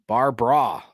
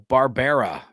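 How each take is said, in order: First: The name is squeezed into two syllables. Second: The name is said with three full syllables. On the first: The speaker calls it right. "That's how I like to say it" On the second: The speaker calls it wrong. "I don't like to pronounce that third"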